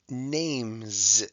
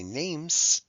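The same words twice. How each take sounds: First: The final sound is a buzzing z. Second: The final sound is a hissing s. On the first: The speaker calls it right. "S can also be a Z sound when it's a suffix, like in names" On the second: The speaker calls it wrong. "We don't say names"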